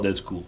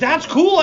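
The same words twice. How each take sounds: First: It is said in a flat, unexcited way. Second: It is said with lively, excited energy. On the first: The speaker calls it wrong. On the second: The speaker calls it right. "Make it sound more exciting"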